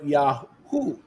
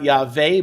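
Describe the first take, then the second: First: The name has a u sound after Yah. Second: The name has a v sound after Yah. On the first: The speaker calls it right. "but Yahu" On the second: The speaker calls it wrong. "Not va, but U. Thus, not Yahweh"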